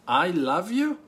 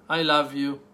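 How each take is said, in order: First: It is said in a mocking, sarcastic tone. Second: It is said in a plain, sincere tone. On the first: The speaker is mocking the listener and does not love them. "Third, that you're mocking me and you hate me and you don't love me at all" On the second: The speaker truly loves the listener. "One, that you truly love me"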